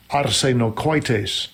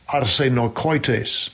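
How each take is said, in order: Both takes have the same delivery.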